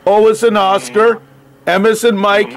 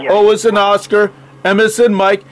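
No difference in how they are said.

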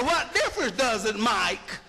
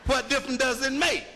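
First: "Mike?" in place of make, dropping low. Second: Said in the usual way. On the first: Shown as a demonstration. Lecturer demonstrates Southern speech to class, make said as "Mike". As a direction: say "Mike" where make belongs, Southern style. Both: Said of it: "Now, what does Mike mean?".

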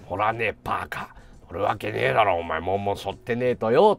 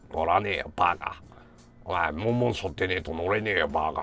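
First: Low, gruff refusal; gruff low grumble. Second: Low, gruff brush-off; gruff low grumble. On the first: Senior refusing friends' urging, low gruff grumble. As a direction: grumble it down low, not giving in. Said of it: "っていうくだり". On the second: Grumpy senior refusing the shrine ride, low gruff grumble. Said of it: "って言いながら". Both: Retold or imitated.

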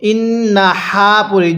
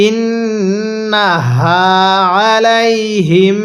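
First: ইন্নাহা with air pushed out on the হা; ইন্নাহা said with a breathy, aspirated হা; wrong breathy h. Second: ইন্নাহা slowly drawn out with nasal ghunnah on নুন; ইন্নাহা recited slowly with ghunnah on the নুন; correct tajweed. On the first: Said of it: "যদি ইন্নাহা পড়ি তাহলে পড়াটা সহি শুদ্ধ হবে না।". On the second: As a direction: hold the doubled নুন of ইন্নাহা, then a clean হা. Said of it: "কিভাবে পড়তে হবে?". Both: Shown as a demonstration.

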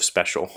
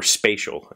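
First: Special with a short E; "SPEH-shul", the standard way; standard pronunciation. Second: Special said as "SPAY-shul"; long A in special, like the parents; parents' pronunciation. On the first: Shown as a demonstration. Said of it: "instead of special". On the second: Retold or imitated. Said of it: "they say things like".

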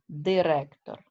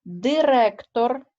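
First: Said in the usual way. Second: Директор said slowly and louder, rising at the end; slow louder demo word. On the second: Shown as a demonstration. Teacher to pupils, stressing Директор slowly and louder. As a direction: sound out Директор slowly, lifting the voice on it. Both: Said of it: "пишеться з «і»".

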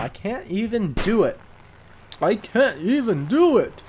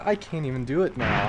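First: High, swooping, hammed-up old man. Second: Said in the usual way. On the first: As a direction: put on a bad old man's exasperation.

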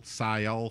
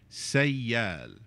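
First: Sail with a broad "ai" gliding to "ol"; the mistaken "Sail", vowel like in English sail; Sail, said as the wrong English-style word. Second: Sayal in two clear syllables, "say" then "al"; Sayal, lightly split into say-al; right vowel. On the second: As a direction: Sayal with a clean open "al" ending. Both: Shown as a demonstration. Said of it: "Not sail".

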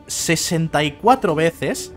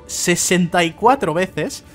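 No difference in how they are said.

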